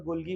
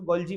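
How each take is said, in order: First: गोल्गी with a hard "g" in the middle; hard-g variant. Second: गोल्जी with a "j" sound in the middle; soft-g variant. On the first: Teacher showing students the other variant, गोल्गी with a hard-g "gee" ending. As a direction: say गोल्गी as "gol-ghee", g as in "go". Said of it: "कुछ लोग गोल्गी बोलते हैं". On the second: Teacher showing students how some people say it, गोल्जी with a "jee" ending. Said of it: "कुछ लोग उसको गोल्जी बोलते हैं". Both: Shown as a demonstration.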